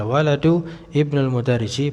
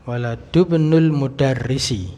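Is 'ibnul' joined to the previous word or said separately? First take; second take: separate; joined. First: 'Ibnul' is said on its own, starting with 'i'. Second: The words run together, with no vowel before 'bnul'. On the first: "ibn itu sering dibaca sendiri juga tidak masalah" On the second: "itu kalau disambung"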